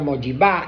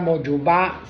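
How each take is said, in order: First: The middle vowel sounds like i. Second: The middle vowel sounds like u. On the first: "se suele pronunciar moyibá" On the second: "la palabra moyubá"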